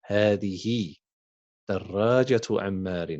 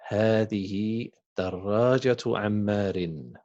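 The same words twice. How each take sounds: First: هذه and دراجة عمار read as separate chunks with a pause between; slow dictation. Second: Said in the usual way. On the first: Shown as a demonstration. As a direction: read it back slowly in two parts for the class. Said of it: "teacher repeats it slowly". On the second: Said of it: "teacher reads the sentence".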